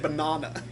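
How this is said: It is said in a British accent. "British people say banana"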